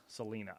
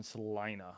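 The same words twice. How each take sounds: First: Salina with "lee" in the middle; long E in Salina. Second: Salina with the middle rhyming with line; long I in Salina. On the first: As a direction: say Salina as "suh-LEE-nuh". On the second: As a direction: say Salina as "suh-LIE-nuh". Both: Real, not acted. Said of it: "I don't know how the hell you say it".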